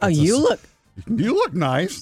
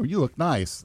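First: Said with a surprised, backhanded inflection. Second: Said as a plain, sincere compliment. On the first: The person does not usually look nice. The speaker calls it wrong. "the way it comes out was like, you look nice. Like, you don't usually look nice, but you look nice" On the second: The person looks nice. The speaker calls it right. "where you say, oh, you look nice"

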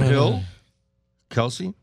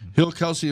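First: The names are said slowly and separately. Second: The names are run together quickly. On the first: The speaker calls it right. "That's better that you slowed down" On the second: The speaker calls it wrong. "I read really fast"

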